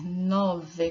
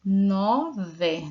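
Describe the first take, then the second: First: Said in the usual way. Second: Nove said louder with a falling finish; emphatic model word. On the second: Shown as a demonstration. Teacher modelling nove for pupils, louder. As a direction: stress Nove for the class to copy. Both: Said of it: "Temos que soletrar".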